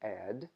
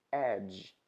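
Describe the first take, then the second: First: Ed terminando em d; Ed com d final claro. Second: Edge terminando em dj; Edge com dj. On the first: ([name] do cantor) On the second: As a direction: Edge com som de j final. (Edge, a outra palavra) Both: Shown as a demonstration. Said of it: "olha a diferença".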